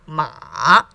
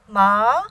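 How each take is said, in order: First: The pitch dips low then rises. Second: The pitch rises from middle to high. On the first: "starts low, goes lower, goes up" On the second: "second tone, rising"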